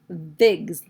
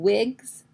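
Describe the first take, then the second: First: The word begins with a V sound. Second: The word begins with a W sound. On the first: "she says vigs, like a V" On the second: "instead of saying wigs"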